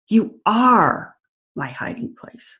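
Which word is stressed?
are. The stress is on "are".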